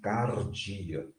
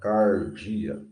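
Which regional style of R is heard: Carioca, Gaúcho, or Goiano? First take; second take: Gaúcho; Goiano. First: The R is trilled in the Gaúcho style. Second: The R is said in the Goiano style. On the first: "com aquele R do gaúcho, vibrando a língua" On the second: "com R do goiano"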